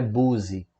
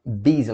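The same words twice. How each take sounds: First: "boozy" with an oo vowel for busy; wrong "boozy". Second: "Busy" with an i vowel, like "bizzy"; correct "Busy". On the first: Teacher showing learners the mistake, "boozy" with oo. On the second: Teacher correcting learners, "Busy" pronounced bizzy. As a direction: say "Busy" as bizzy, not boozy. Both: Shown as a demonstration. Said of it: "não é boozy".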